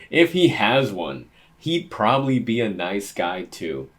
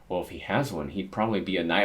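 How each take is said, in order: First: Laughing. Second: Said in the usual way. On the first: Real, not acted. Rereads line still laughing.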